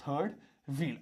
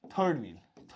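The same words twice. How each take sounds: First: "third... wheel", a pause between the words. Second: Said in the usual way. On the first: Shown as a demonstration. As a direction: dictate "third wheel" one word at a time. ("third wheel" को अलग-अलग शब्दों में बोलें) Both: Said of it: "ऐसे लिखा हो".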